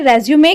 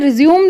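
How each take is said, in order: First: The word ends with an 'ay' vowel after 'm'. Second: The word ends on a plain 'm' sound. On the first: The speaker calls it right. "Actually उसे रेज्यूमे कहना चाहिए।" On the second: The speaker calls it wrong. "उसे रिज्यूम लोग कह देते हैं, लेकिन वह गलत है।"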